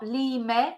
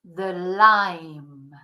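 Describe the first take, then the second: First: "lime" as two syllables, LEE-meh; Spanish-style reading of "lime", final e voiced; mispronounced lime. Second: "lime" as one syllable with long i; drawn-out "lime" with silent e; correct English pronunciation. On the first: Teacher showing learners what to avoid, "lime" as lee-meh. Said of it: "not lime". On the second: Teacher correcting the Spanish-style reading, one-syllable "lime". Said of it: "in English is the lime". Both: Shown as a demonstration.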